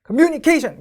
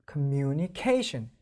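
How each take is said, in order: First: Communication said high and loud, both stresses hit hard; the wrong, over-hit communication; wrong equal stress. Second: Communication drawn out very slowly; slow-motion communication; slow stress demo. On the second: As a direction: stretch communication to show its beats. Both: Shown as a demonstration. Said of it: "같은 강세가 아니라".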